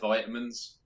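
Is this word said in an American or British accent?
American. It is said with an American accent. "I didn't quite go as far as to say like vitamins"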